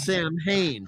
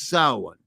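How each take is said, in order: First: It is said as anglicized 'Sam Hain'. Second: It is said in the Irish Gaelic way. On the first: The speaker calls it wrong. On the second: The speaker calls it right. "it's Irish Gaelic, so it's"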